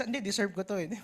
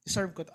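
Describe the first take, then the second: First: Said in the usual way. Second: Softer, quick mock boast through a laugh. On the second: Preacher laughs while mocking a proud believer's boast. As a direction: laugh at the bragger as you echo him.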